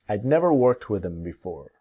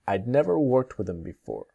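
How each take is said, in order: First: 'I had' is shortened to one syllable. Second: The same.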